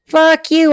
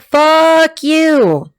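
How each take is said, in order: First: "Fuck you" broken by a laugh, higher pitch; laughing curse. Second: A snappy, defiant "Fuck you" in a higher voice; sassy comeback. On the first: Real, not acted. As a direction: curse them, half laughing. Own outburst at the cards. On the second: Retold or imitated. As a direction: toss it back like the client would. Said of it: "She's like".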